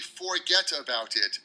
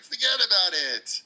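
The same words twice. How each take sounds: First: Each word is pronounced fully and separately. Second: The words are reduced and run together. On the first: The speaker calls it wrong. "if you wrote it down, it would be" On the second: The speaker calls it right. "But we never say it that way"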